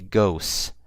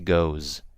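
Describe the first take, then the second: First: The word ends with a hissing s sound. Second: The word ends with a buzzing z sound. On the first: The speaker calls it wrong. "not with an S, but with a Z. So I didn't say goes" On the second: The speaker calls it right. "I say goes"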